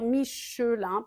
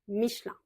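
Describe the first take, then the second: First: The middle E vowel is fully pronounced. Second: The middle E vowel is swallowed, shortening the word. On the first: The speaker calls it wrong. "on va pas vraiment dire Michelin" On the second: The speaker calls it right. "on a tendance un petit peu à l'avaler et à raccourcir le mot"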